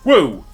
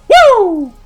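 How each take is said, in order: First: The woo is said quietly and weakly. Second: The woo is said very loudly and forcefully. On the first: The speaker calls it wrong. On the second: The speaker calls it right.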